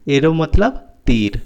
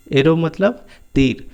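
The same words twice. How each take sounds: The two takes are said the same way.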